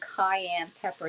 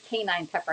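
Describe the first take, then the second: First: The first word sounds like 'cayenne'. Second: The first word sounds like 'canine'. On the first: The speaker calls it right. "I'm saying cayenne pepper" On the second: The speaker calls it wrong. "not canine pepper. I used to say canine"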